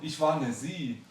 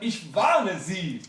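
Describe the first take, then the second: First: The stress falls on the word Sie. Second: The stress falls on the word warne. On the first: The speaker was once a woman. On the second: The speaker is warning the listener.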